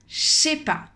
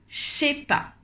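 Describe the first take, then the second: First: Said very fast, the words squeezed together. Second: Said very fast, the words squeezed together.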